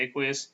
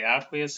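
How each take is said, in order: First: "aqueous" starting AY, as in AY-kwee-us; AQUEOUS with long A. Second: "aqueous" starting ACK, as in ACK-wee-us; AQUEOUS with short A. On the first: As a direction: open "aqueous" with the long a of "day". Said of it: "some people say aqueous". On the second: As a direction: open "aqueous" with the short a of "cat". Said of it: "Some people say aqueous". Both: Shown as a demonstration.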